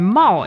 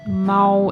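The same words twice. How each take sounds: First: The syllable carries the fourth tone. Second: The syllable carries the first tone. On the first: It is part of the word for reckless. "And 毛 is the fourth tone" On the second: It means cat. "毛 is the first tone"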